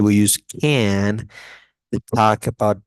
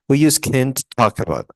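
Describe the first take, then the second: First: The word can is full and strong. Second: The word can is reduced and weak. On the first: The speaker calls it right. "the long form" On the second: The speaker calls it wrong. "I don't say that"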